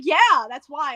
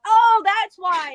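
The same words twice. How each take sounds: First: Lower, lightly imitated "yeah, obviously"; matter-of-fact confirmation. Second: Loud, drawn-out "oh" of discovery; belated realization. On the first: He answers her late realization, mock matter-of-fact. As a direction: confirm it as old news, pitched down. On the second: Retold or imitated. Habit of reacting to obvious things, belated realization. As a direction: act out the penny finally dropping, slowly. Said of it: "when things are obvious".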